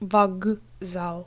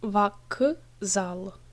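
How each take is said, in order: First: The consonant before z is voiced, a g. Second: The consonant before z is voiceless, a k. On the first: The speaker calls it right. "Here is an example how one consonant becomes voiced" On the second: The speaker calls it wrong. "It's not вокзал"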